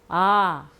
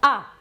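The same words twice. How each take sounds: First: The vowel is long and soft. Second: The vowel is short and strong. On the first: "또 길게 발음해 주시고 약하게" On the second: "세게 짧게 발음합니다"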